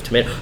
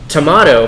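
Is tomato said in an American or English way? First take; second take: American; English. First: Tomato is said with an American pronunciation. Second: Tomato is said with an English pronunciation. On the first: "instead of tomato" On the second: "that's generally an English pronunciation of saying tomato"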